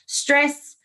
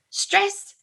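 First: Put-on light thick Ukrainian accent; a hint of a Ukrainian dad. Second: Put-on thick Ukrainian accent, high and drawn out. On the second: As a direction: say it like a Ukrainian dad. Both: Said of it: "in this very thick Ukrainian accent".

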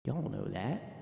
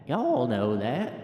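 First: Said in the usual way. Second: Slow, stretched "Y'all know that"; drawn-out repeat. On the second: Acted. Folksy voter checking with listeners, slow drawn-out "Y'all know that". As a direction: drag out every word of "Y'all know that".

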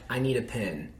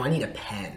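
First: "pin" said with the short i of pin, vowel nasal and held; "pin" with a Texas vowel; Texan "pin" for pen. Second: Said in the usual way. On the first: Shown as a demonstration. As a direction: say "pin" the Southern way, like a pin. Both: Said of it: "No, "I need a pen".

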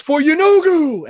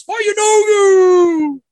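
First: High, loud, drawn-out war cry; lone champion shouting to the crowd; battle-cry shout. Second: Very high, very loud, long-held war cry; a mob roaring back its battle cry; whole crowd shouting. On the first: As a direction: shout it slowly, pitched way up. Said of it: "and he shouts". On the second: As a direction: stretch the chant out at full shout. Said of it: "And everyone shouts". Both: Acted.

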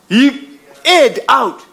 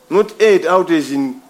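First: Aired drawn out slowly, air as in breath. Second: Aired said like erred, meaning wandering off; the wrong sense of aired, slower. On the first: Preacher spelling out the sense of aired to the church, slow. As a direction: stretch out aired like letting out air. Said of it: "A I R". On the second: Preacher contrasting the wrong meaning of aired, slow. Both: Shown as a demonstration.

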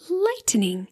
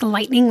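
First: "lightning" said slowly as light-en-ing; drawn-out three syllables. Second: Said in the usual way. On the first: Shown as a demonstration. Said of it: "you're gonna look for, like, a lightning sensation". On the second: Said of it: "like thunder and lightning".

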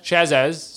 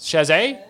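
First: "Chazez" with the final z sounded. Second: "Chazet" ending in an -ay sound, higher; French-style guess. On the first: Co-host guessing a surname, "Chazez" with final z. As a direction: say "Chazez" ending in a clear -ez. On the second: Co-host guessing a surname, "Chazet" said French-style. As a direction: ask "Chazet" with a silent final t. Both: Shown as a demonstration.

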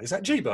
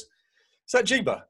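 First: Put-on child voice. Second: Put-on higher, slow childlike question; curious little boy. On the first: Son repeating the question. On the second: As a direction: play the small son, wide-eyed and slow. Son peeking at photos.

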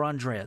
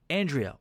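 First: Andrea said ahn-DRAY-uh; alternative name pronunciation. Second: Andrea said AN-dree-uh; first name pronunciation. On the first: Host offering the name's other reading, Andrea as ahn-DRAY-uh. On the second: Host reading out the sender's name, Andrea as AN-dree-uh. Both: Shown as a demonstration. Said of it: "Those two names are spelled exactly the same".

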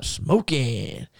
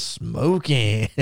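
First: Drawn-out mock catchphrase; movie catchphrase. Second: Imitated country Alabama accent; Bobby Eaton. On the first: Host quotes The Mask's catchphrase, drawn out in imitation. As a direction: stretch out SMOKING like a film catchphrase. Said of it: "the part where he comes out smoking". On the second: Wrestler copies film catchphrase, imitated country Alabama accent. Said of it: "in that Bobby Eaton country Alabama accent".

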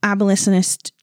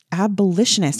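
First: Abolitionist with the sh said as s; sh slipping to s. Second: Abolitionist with a clear sh sound; sh said clearly. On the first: Real, not acted. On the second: Shown as a demonstration. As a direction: correct the sh in abolitionist. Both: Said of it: "having a really hard time with the shushes".

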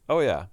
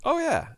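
First: Said in the usual way. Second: Very high, loud "Oh, yeah"; squealed agreement. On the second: Real, not acted. High exclamation then plain repeat.

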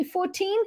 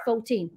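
First: "fourteen" with the r sounded, higher; own FOURTEEN. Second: "fourteen" with a rounded "fo-", falling; their local FOURTEEN. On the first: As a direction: say "fourteen" with a clear r. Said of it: "I say fourteen". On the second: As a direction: say "fourteen" like "foe-teen". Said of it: "they say fourteen". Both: Shown as a demonstration.

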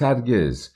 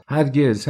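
First: Repeated refusal. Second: Angry shout. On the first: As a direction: repeat هرگز as the shout settles. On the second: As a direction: fling out هرگز as a flat refusal. (هرگز با فریاد بلند و خشمگین) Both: A narrator's reading. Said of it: "و فریاد زد".

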